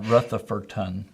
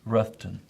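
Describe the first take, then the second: First: The name is said in full, four syllables. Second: The name is shortened to two syllables. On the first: The speaker calls it wrong. "It's not Rutherfordton" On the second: The speaker calls it right. "It's Ruffton"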